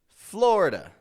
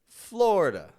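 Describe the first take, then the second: The two takes are said the same way.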